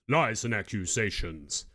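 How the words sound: It is spoken in a deep, powerful voice.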